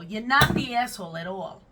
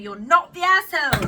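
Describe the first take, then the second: First: It is said in a New York accent. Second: It is said in a British accent.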